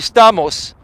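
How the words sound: The name is said with Greek pronunciation. This is the original form of the name. "It's actually Stamos"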